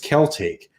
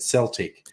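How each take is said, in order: First: The word begins with a k sound. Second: The word begins with an s sound. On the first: This is the Latin-derived pronunciation used for the history. "going back to the original Latin Celte" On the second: This is the French-derived pronunciation. "they pronounced it with the soft C. The, the French said Celtic"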